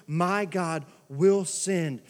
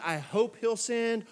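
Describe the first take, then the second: First: Slow, firm "will" leaned on; stress on WILL. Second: Slow, tentative "I hope he'll send"; doubtful. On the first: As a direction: land "will" like a certainty. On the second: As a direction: say it unsure, hoping. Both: Shown as a demonstration.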